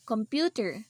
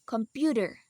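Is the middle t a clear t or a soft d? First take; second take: clear t; soft d. First: The middle t is a clear t sound. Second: The middle t sounds like a soft d. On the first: "We normally pronounce these words um something like this" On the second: "we pronounce computer as computer"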